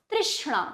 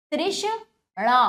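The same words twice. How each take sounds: First: Said in the usual way. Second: तृष्णा slowly split as तृष्... णा; broken into syllables. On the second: Shown as a demonstration. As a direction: pause inside तृष्णा before णा. (तृष्णा को धीरे से तोड़कर: तृष्... णा) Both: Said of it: "तोड़कर पहले".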